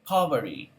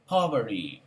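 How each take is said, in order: No difference in how they are said.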